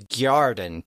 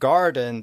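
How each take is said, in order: First: A y glide follows the g. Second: The g goes straight into the vowel. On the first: "put a little Y in there" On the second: "instead of saying garden"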